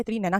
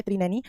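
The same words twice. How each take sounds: First: त्रिनैना ending in "naa"; त्रिनैना with a final long aa; correct aa ending. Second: त्रिनैनी ending in "nee"; त्रिनैनी with a final long ee; wrong ee ending. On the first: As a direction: say त्रिनैना as "tri-nainaa". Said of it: "त्रिनैना कहलाती है". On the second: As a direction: say त्रिनैनी as "tri-nainee". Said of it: "त्रिनैनी नहीं कहलाती". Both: Shown as a demonstration.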